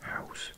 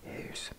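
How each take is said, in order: First: The vowel sounds like English 'ow'. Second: The vowel is a rounded Dutch 'ui' sound. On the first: The speaker calls it wrong. "I think I used to pronounce it house" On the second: The speaker calls it right. "Does that sound better?"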